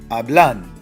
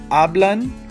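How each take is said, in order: First: The stress is on the last syllable. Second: The stress is on the first syllable. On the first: The speaker calls it wrong. "or do I raise my voice on blan?" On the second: The speaker calls it right. "Do I raise my voice on a"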